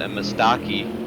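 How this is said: It is said in an imitated Canadian accent.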